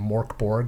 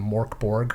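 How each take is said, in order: First: The name has an American-style pronunciation. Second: The same.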